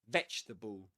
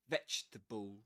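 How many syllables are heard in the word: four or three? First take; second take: three; three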